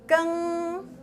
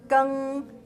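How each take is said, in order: First: The syllable is said on a high level tone. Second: The syllable is said on a mid level tone. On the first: "and five, five" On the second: "the first one is lower? ... the first syllable is tone three, three"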